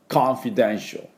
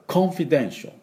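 First: It has an American accent with an open first vowel. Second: It has a British accent with a rounded first vowel. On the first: "アメリカ人と、コンフィデンシャル、コンフィデンシャルっていう感じになります" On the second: "イギリス人だと、コンフィデンシャル、コンフィデンシャルみたいな音になる"

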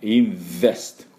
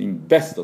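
First: The middle consonant is a buzzing V sound. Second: The middle consonant is a stopped B sound. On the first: The speaker calls it right. "この音が出れば大丈夫です" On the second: The speaker calls it wrong. "B の音を出してしまうと、ダメですね"

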